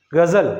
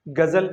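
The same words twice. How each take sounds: First: गजल said with the nukta as ग़ज़ल, the ग़ a throaty gh and the ज़ a buzzing z, a bit louder; nukta pronunciation. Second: Said in the usual way. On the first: Shown as a demonstration. Teacher showing students how the nukta changes गजल to ग़ज़ल. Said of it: "अब इसका उच्चारण और इसका उच्चारण देखिए". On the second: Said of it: "इसको मैंने simply बोल दिया".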